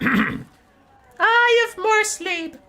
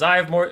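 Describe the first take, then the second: First: It is said in a put-on character voice. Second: It is said in his normal voice.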